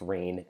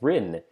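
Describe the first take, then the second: First: The vowel sounds like the one in 'pain'. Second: The vowel sounds like the one in 'pin'. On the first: The speaker calls it right. "that is how it's pronounced" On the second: The speaker calls it wrong. "mispronounced rain as Rin"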